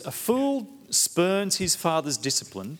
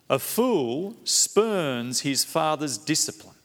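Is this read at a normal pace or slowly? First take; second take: normal; slowly. First: It is read at a normal pace. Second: It is read slowly and deliberately.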